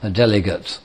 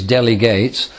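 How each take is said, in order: First: It is said with the noun pronunciation. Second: It is said with the verb pronunciation. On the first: The person who is handed a task. "the person to whom you do delegate is then a delegate" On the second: The action of handing over a task. "The verb is delegate"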